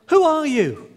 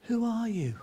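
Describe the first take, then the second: First: High, loud call across the valley; boy calling into the valley, surprised. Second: Softer repeat, like the valley answering; the echo answers the boy. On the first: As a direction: shout out to find who's there. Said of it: "To his surprise, he said". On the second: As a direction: let it come back faint. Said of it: "you could hear an echo". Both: Retold or imitated.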